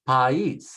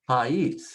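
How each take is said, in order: No difference in how they are said.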